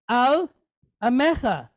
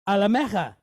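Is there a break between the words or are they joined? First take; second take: break; joined. First: There is a break between the two words. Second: The two words are joined with no break. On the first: The speaker calls it wrong. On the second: The speaker calls it right.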